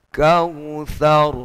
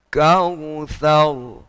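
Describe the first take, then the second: The two takes are said the same way.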